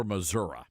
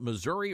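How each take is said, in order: First: Missouri ending in "uh". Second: Missouri ending in a clear "ee". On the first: Asking how locals say the state name, uh ending. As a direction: say Missouri as muh-ZUR-uh, not with an ee. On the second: Asking how locals say the state name, ee ending. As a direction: say Missouri as muh-ZUR-ee, with an ee at the end. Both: Shown as a demonstration. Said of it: "do the locals call it".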